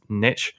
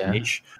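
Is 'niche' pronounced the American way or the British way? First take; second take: American; British. First: The word is said with an American pronunciation. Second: The word is said with a British pronunciation. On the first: "that's like the way it's said in American English" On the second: "whereas in British English, right, it's niche"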